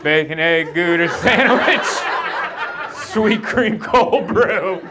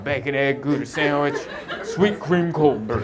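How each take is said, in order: First: High, stretched-out, loud recital of the order; helpless rote blurting. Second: Measured self-rehearsal at usual volume; rehearsing to oneself. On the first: Thrown customer blurting his memorized order at cashier, high and drawn-out. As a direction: blurt the order, climbing higher and slowing down. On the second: Sleepless customer rehearsing his coffee order in line, measured recital. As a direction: recite the order to yourself, item by item. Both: Retold or imitated.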